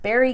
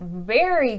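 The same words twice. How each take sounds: First: The word starts with a B sound. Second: The word starts with a V sound. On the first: The speaker calls it wrong. "I hear like a lot of people say" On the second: The speaker calls it right. "No, berries are something that I eat"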